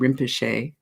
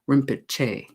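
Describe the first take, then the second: First: The word is said without a ch sound. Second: The word is said with a ch sound. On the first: "I'm saying Rinpoche" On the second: "with the chi, ch sound"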